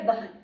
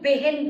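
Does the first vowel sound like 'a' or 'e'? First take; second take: a; e. First: The first vowel sounds like 'a'. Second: The first vowel sounds like 'e'. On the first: The speaker calls it right. "उसका सही उच्चारण होता है बहन।" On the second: The speaker calls it wrong. "तो हम बेहन बोलते हैं।"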